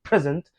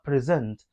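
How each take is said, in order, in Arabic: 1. النبر على المقطع الأول. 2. النبر على المقطع الثاني. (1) "لو عملت الستريس على المقطع الاول present معناها هديه" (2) "انا بقولها منطقها present"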